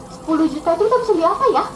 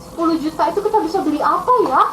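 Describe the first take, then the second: No difference in how they are said.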